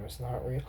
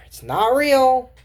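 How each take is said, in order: First: Much lower and much softer, trailing off; a soft afterthought, nearly under the breath; quiet echo. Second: Slow and a bit louder, leaning on real; emphatic it's not real; firm statement. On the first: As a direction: murmur it to yourself. Quiet echo of the same phrase. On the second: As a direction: say it slowly and firmly, stressing real. Repeats the phrase, then echoes it. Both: Shown as a demonstration.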